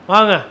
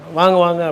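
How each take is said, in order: First: The greeting sounds curt and dismissive. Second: The greeting sounds warm and welcoming.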